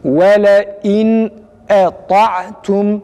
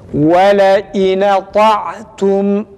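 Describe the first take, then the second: First: The n closes the syllable; the glottal stop is clear. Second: The glottal stop drops; its vowel moves onto n. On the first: This follows the commonly read local tradition. "nunun cezmini tam belli ediyoruz. Ondan sonra hemzenin harekesini net bir şekilde okuyoruz" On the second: This follows the other reading tradition. "Nunda durmuyoruz, cezim yapmıyoruz. Harekeyi nuna veriyoruz"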